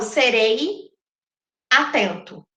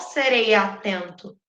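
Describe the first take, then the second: First: The words are separated by a short pause. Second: The vowels are run together without a pause. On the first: The speaker calls it wrong. "eu não falo serei atento. Eu não dou essa pausa" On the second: The speaker calls it right. "Eu falo, de tudo ao meu amor serei atento. Vira quase sereia"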